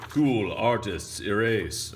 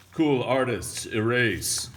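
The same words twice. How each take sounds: First: Slow, drawn-out catchphrase call. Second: Loud, higher announcer call; catchphrase call. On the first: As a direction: stretch the catchphrase out. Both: Shown as a demonstration.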